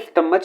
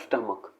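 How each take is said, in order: First: The word ends with a ch sound. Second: The word ends with a k sound. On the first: The speaker calls it wrong. "कई इसे स्टमच बोलते हैं, ... जो कि incorrect pronunciation है।" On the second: The speaker calls it right. "इसका जो सही प्रोनाउंसिएशन है वो है स्टमक।"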